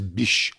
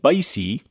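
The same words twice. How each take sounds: First: The name is said to sound like bush. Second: The name is said unlike bush. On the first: "Bysshe sounds like bush" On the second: "Bysshe does not sound like bush at all"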